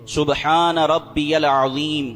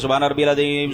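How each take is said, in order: First: It is recited slowly and carefully. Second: It is recited quickly and hurriedly.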